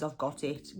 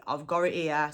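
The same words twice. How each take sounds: First: Said in the usual way. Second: GOT IT as "gorrit", with an r; words run together. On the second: Shown as a demonstration. Teacher repeats the example, GOT IT said "gorrit". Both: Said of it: "So gorrit means".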